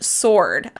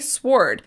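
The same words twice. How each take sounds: First: The W is silent. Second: The W is sounded. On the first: The speaker calls it right. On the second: The speaker calls it wrong.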